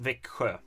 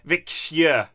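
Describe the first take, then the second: First: The sounds follow the usual spoken form. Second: Every letter is sounded as it is written. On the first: The speaker calls it right. "but it's pronounced Växjö" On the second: The speaker calls it wrong. "It's spelled like Väx Växjö"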